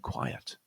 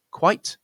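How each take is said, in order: First: "quiet" low and soft, in two beats; QUIET as two syllables. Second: "Quite" high and loud, one beat; QUITE as one syllable. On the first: Teacher recaps the pair, "quiet" in two syllables. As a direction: say "quiet" as KWY-ut, dropping down. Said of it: "is a two-syllable word". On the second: Teacher recaps the pair, "Quite" in one syllable. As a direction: say "Quite" as a single KWYTE. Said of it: "is a one-syllable word". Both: Shown as a demonstration.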